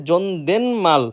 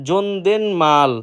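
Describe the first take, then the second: No difference in how they are said.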